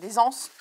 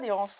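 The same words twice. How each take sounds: First: The s of des links as z to anses. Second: The s of des is not linked to anses. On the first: The speaker calls it right. "c'est des anses, normalement. Si, on fait la liaison" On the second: The speaker calls it wrong. "ça se dit pas"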